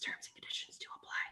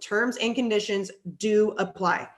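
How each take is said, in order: First: It is spoken in a whisper. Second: It is spoken in a normal voice.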